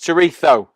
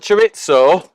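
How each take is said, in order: First: The word is said with a Spanish pronunciation. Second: The word is said with an anglicized pronunciation. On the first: The speaker calls it right. "it's chorizo" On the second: The speaker calls it wrong. "It's not chorizo"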